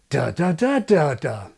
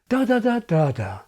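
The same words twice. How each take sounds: First: The pitch rises before the final downshifted fall. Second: The pitch stays level before the final fall. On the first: "preceding that Thatcherite downshifted fall with a rising pre-nuclear pitch"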